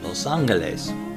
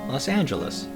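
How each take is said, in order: First: It has an O vowel and a hard G. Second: It has an A vowel and a J sound. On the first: "Spoken correctly in Spanish, with an O sound in the los and an hard, well, kind of hard G" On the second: "with an A sound for the O in los, and of course the J sound for the G, and an A sound for the last E"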